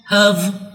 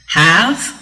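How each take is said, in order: First: The word is said with a reduced vowel. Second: The word is said with a full vowel. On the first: "have or of for the weak form" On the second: "for the strong form"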